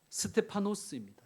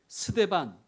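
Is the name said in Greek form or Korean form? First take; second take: Greek form; Korean form. First: The name is said in its longer Greek form. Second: The name is said in its short Korean form.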